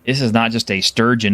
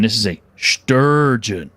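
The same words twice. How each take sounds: First: Said in the usual way. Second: "sturgeon" drawn out slowly with weight; stress on sturgeon. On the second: Acted. Game master unveiling a monster fish, "sturgeon" stretched out dramatically. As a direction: stretch out the word "sturgeon" for emphasis.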